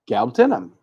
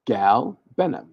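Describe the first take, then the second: First: "Galbanum" fast and higher, GAL punched; quick, higher take. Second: "Galbanum" slowly, each syllable drawn out; slow careful pronunciation. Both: Shown as a demonstration. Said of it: "That's how you say it".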